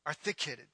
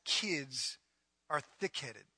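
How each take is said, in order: First: Low, soft mumble; quiet repeated jab; muttered aside. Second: Low, soft muttered aside; mumbled under the breath. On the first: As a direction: toss it off under the breath. Repeated punchline, dropped low. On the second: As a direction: drop the voice for the punchline. Pastor muttering punchline aside. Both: Acted.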